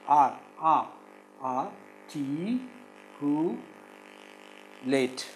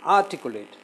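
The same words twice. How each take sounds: First: "articulate" in slow isolated syllables; "articulate" with long gaps between syllables. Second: Said in the usual way. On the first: Shown as a demonstration. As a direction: break "articulate" into ar, ti, cu, late. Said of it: "It is four syllables". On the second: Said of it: "Can you syllabify these words?".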